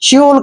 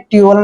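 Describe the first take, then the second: First: The syllable starts with a 'ch' sound. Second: The syllable starts with a plain 't' sound. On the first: The speaker calls it right. "च्यूल करते हैं" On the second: The speaker calls it wrong. "ट्यूल नहीं करना है"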